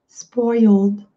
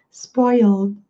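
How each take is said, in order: Both takes have the same delivery.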